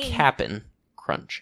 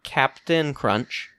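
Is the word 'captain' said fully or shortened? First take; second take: shortened; full. First: Captain is clipped to a short 'cap-n' sound. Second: Captain is said in full, with both syllables clear. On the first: The speaker calls it right. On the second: The speaker calls it wrong. "Not Captain Crunch. I believe you might have been mispronouncing it"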